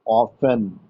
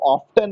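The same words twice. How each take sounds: First: "ऑफन" with no t sound; silent t. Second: "ऑफ्टन" with the t clearly sounded; T pronounced. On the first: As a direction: say "ऑफन", going straight from f to n. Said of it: "उसको क्या पढ़ते हैं?". ("ऑफन" में त का उच्चारण नहीं) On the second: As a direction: say "ऑफ्टन" with an audible t after the f. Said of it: "उसको ऑफ्टन नहीं पढ़ते हैं". ("ऑफ्टन" में त का साफ़ उच्चारण) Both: Shown as a demonstration.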